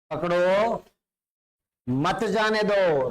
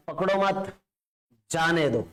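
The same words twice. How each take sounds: First: Drawn-out "पकड़ो", a beat, then slow "मत जाने दो"; pause after पकड़ो. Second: "पकड़ो मत", a beat, then falling "जाने दो"; group "पकड़ो मत" together, break before "जाने"; pause after मत. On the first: Teacher showing the stop-him meaning, pausing after "पकड़ो". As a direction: break between "पकड़ो" and "मत", stretching "जाने दो". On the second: Teacher showing the let-go meaning, pausing after "मत". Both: Shown as a demonstration. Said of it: "थोड़ा सा रुक के बोलना है".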